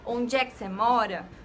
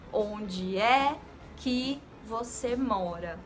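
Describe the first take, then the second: First: The words run together in one smooth phrase. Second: Each word is separated by a short pause.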